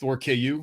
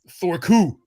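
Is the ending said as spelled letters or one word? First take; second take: spelled letters; one word. First: The ending is said as two separate letters. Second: The ending is said as one syllable. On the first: "Maybe it's just Thor K U. Maybe he went to Kansas" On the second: "which I'm not sure if that's how he pronounces it"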